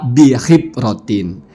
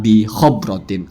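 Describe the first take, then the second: First: The vowel after the h is i. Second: The vowel after the h is o. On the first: The speaker calls it right. "bukan ya, dibaca bihibrotin" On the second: The speaker calls it wrong. "Nggak ada yang dibaca bihobrotin"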